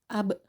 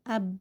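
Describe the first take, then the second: First: The final b is released with a bounce. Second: The final b stops closed without release. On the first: The speaker calls it right. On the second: The speaker calls it wrong. "jangan berhenti"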